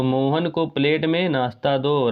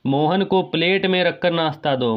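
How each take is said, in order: First: The corrected "Mohan को plate में नाश्ता दो" said slowly, word by word; slow it down to model the right sentence; slow correct version. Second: Said in the usual way. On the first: Shown as a demonstration. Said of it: "ये शुद्ध रूप हो जाएगा". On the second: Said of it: "थोड़ी ना plate में रख देंगे".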